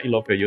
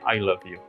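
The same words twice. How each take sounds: First: Each word is read as spelled, Indonesian-style. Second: The words use standard English vowel sounds. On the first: The speaker calls it wrong. "bacanya I love you" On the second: The speaker calls it right. "lalu menjadi I love you"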